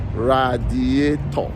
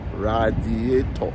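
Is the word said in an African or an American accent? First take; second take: African; African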